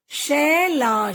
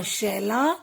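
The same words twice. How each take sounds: First: "शैला" split slowly as शै-ला; teacher's drawn-out "शैला"; sounding out. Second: Said in the usual way. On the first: Shown as a demonstration. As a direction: stretch both syllables of "शैला". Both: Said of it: "कुछ ए के शब्द भी हैं".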